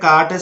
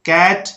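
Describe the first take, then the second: First: The vowel is an open 'aa' sound. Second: The vowel is a flat front 'ae' sound. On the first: The speaker calls it wrong. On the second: The speaker calls it right.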